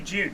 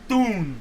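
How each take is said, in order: First: It starts with a sound close to J. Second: It starts with a plain D sound. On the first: "it's not quite June. There's a hint of a D" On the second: "as Americans say"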